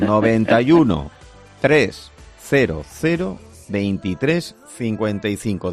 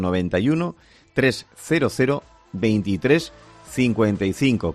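First: The number is said at a slow pace. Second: The number is said at a fast pace.

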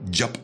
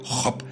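First: It starts with an English j sound. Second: It starts with a throaty h-like sound. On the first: The speaker calls it wrong. "y no Job, que con esto del bilingüismo" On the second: The speaker calls it right. "he dicho Job"

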